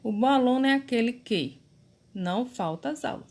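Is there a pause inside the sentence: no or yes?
yes. There is a short pause inside the sentence. The speaker calls it right. "quando a gente dá uma pausa"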